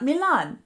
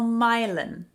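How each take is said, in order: First: The name is pronounced the non-local way. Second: The name is pronounced the local way. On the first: The speaker calls it wrong. "not Milan" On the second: The speaker calls it right. "One we call Milan"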